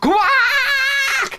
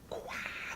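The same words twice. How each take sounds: First: It is said very loudly. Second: It is said very quietly.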